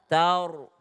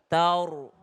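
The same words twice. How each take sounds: No difference in how they are said.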